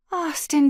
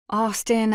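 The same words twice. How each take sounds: First: Shouted high and loud, stopping him; shouting his name. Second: Pleading. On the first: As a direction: call out Austin sharply, raised voice. Tracy yells at him leaving. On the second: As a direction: say "Austin," gently, hoping he'll listen. She pleads in the car. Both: Acted.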